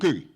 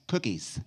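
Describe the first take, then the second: First: The word ends without an S sound. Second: The word ends with a clear S sound. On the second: "Can you hear the S?"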